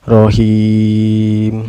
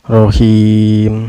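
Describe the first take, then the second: First: The long vowel is held for four beats. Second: The long vowel is held for two beats. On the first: "Yang empat harkat" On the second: "Contoh yang dua harkat"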